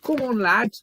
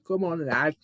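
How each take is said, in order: First: High, loud Scouse cheer; Scouse accent. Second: Lighter, everyday-volume Scouse; Scouse accent. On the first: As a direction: put on a Scouse accent and urge him on loudly. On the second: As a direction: urge him on in a little Scouse accent. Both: Pretend. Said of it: "Do my little Scouse accent".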